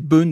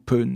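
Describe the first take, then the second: First: The initial p is said without aspiration. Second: The initial p is said with aspiration.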